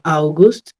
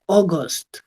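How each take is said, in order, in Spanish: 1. La primera vocal es un deslizamiento 'ow'. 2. La primera vocal es un solo sonido 'aw'. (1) "no voy a decir AU, como hacemos en español" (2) "ese diptongo se pronuncia como O"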